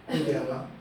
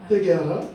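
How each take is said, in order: First: Said in the usual way. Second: 회개하라 said louder, ending on a rise; louder repeated call. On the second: Acted. Preacher to congregation, repeating Jesus' call 회개하라 with a loud rising push. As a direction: push the second 회개하라 out harder and lift its end.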